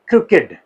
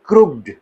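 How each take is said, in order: First: The ending -ed is an extra syllable. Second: The ending -ed is a plain d sound. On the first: The speaker calls it right. "बल्कि it is क्रुकेड" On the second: The speaker calls it wrong. "It is not क्रुक्ड"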